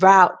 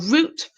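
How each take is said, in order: First: The vowel rhymes with out. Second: The vowel rhymes with boot. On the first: "route for American" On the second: "root for British"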